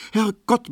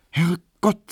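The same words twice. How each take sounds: First: Herrgott very high in alarm; startled exclamation. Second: High surprised Herrgott; exclaiming. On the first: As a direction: Herrgott cried out higher, startled. Emma realizes she is late. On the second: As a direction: Herrgott flung out higher. Emma exclaims before noticing the time. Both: Acted.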